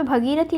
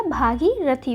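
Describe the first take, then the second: First: भगीरथी starting short "bha"; भगीरथी, quick first vowel; wrong form shown. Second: भागीरथी slowly, starting long "bhā"; slow भागीरथी with long first vowel; correct form shown. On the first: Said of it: "लिखा है". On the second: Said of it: "जबकि होगा क्या?". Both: Shown as a demonstration.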